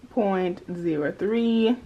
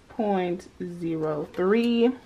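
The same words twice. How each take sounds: The two takes are said the same way.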